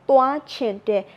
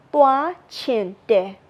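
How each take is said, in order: First: Said in the usual way. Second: 1 slow demo. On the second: Shown as a demonstration. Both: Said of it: "So it will be".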